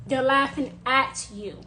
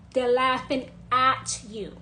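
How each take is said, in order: Both takes have the same delivery.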